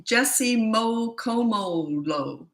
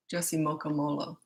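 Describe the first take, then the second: First: Very slow, stretched-out "Mokomolo"; sounding out slowly. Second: Said in the usual way. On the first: Real, not acted. Host reading an unfamiliar viewer name, sounding it out slowly. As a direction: draw out each syllable of "Mokomolo".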